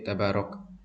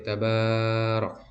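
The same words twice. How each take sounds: First: The vowel after b is cut short. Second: The vowel after b is drawn out long. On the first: "tidak terlalu cepat seperti tabarok" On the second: "tidak terlalu lambat seperti tabarok"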